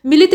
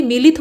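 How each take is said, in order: First: मिलित with short first i; quick first vowel in मिलित; wrong short i. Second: मिलित with long first ee. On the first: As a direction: say मिलित as mi-lit. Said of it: "मिलित नहीं बल्कि". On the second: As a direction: say मिलित as mee-lit. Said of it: "बल्कि मिलित होता है". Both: Shown as a demonstration.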